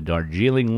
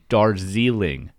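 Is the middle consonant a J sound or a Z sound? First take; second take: J sound; Z sound. First: The middle consonant is a J sound. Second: The middle consonant is a Z sound.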